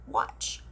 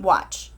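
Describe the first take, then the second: First: Whispered, barely there; a soft divine whisper; God whispering. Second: Said in the usual way. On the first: Retold or imitated. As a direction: hush it like a secret promise. God's reply in her story.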